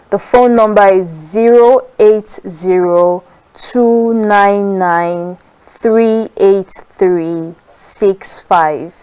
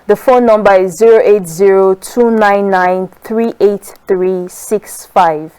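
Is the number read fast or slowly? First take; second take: slowly; fast. First: The number is read at a slower pace. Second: The number is read at a quicker pace.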